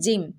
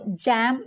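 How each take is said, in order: First: The vowel is a short 'i' sound. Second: The vowel is an 'a' sound. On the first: The speaker calls it right. "आई की short pronunciation होगी" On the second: The speaker calls it wrong. "जैम नहीं"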